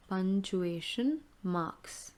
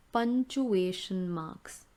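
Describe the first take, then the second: First: Repeat slowly. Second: Model the term. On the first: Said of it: "teacher repeats term slowly". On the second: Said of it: "teacher models term". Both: Shown as a demonstration.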